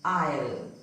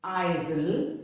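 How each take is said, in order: First: "isle" as eye-ul, no S; "isle" sounding just like "I'll"; silent S. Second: "isle" wrongly as eye-zul; S sounded. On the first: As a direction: drop the S from "isle". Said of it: "it is pronounced as". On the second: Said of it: "It is not pronounced as". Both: Shown as a demonstration.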